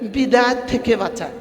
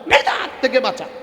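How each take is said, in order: First: It is said softly and affectionately. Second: It is said firmly and forcefully. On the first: The danger is treated lightly. The speaker calls it wrong. "এটা হলো বিদাতকে আদর করা হয়" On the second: The danger is taken seriously. The speaker calls it right. "শক্ত করি বলি"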